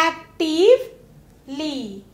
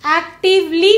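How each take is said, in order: First: एक्टिवली very slowly, pause before the final ली; broken into parts. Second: Said in the usual way. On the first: Shown as a demonstration. Teacher showing the class the suffix, एक्टिवली slowly broken in two. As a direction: split एक्टिवली into "active" and a drawn-out "lee". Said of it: "जिसमें L Y यानी". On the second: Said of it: "भी बोलते हैं".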